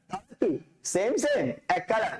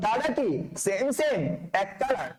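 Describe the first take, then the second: No difference in how they are said.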